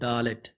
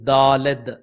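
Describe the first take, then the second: First: It is said the English way, ending in t. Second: It is said the Hebrew way, ending in d. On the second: "దీన్ని కొంతమంది ఎలా ప్రొనౌన్స్ చేస్తారంటే"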